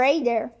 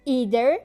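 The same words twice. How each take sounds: First: "either" opening on an AY vowel; AY-ther. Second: "either" with a long EE at the start; EE-ther. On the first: Teacher offering learners the other variant, "either" as AY-ther. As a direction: begin "either" like the vowel in day. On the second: Teacher offering learners one variant, "either" as EE-ther. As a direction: say "either" opening on the vowel of see. First of two pronunciations of either. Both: Shown as a demonstration.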